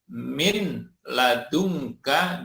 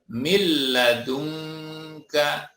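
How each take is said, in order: First: The n is pronounced separately before the l. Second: The n merges into a doubled l sound.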